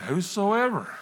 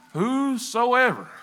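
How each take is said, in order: First: Said in the usual way. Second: Whosoever drawn out slowly, pitched higher; emphatic WHOSOEVER. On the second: Real, not acted. Testifier quoting scripture to church, lingering on whosoever. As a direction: stretch out every part of whosoever.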